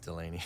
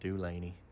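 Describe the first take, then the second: First: The name is said the local way. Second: The name is said the Southern way. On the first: The speaker is from around here. "but if you're from here, it's just Delaney" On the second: The speaker is from the South. "If you're from the South, where our family's from, you pronounce it Dulaney"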